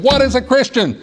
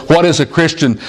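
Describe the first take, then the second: First: Much higher, ringing preacher's cry; preacher's climax. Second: Said in the usual way. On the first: A narrator's reading. Preacher pounding the pulpit at sermon's end, higher ringing cry. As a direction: build the question to the peak. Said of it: "he got a little louder and a little louder". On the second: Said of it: "the third or fourth time the preacher said".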